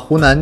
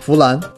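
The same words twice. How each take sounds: First: The first consonant is the standard Mandarin sound. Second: The first consonant is swapped between h and f.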